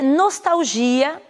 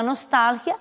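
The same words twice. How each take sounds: First: Nostalgia drawn out, stressed on GI; Portuguese pronunciation. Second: Nostalgia stressed on TAL; Spanish pronunciation. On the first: Teacher giving the Portuguese word, stress on GI. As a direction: slowly stretch GI in nostalgia. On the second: Teacher giving the Spanish word, stress on TAL. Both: Shown as a demonstration. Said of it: "em espanhol será".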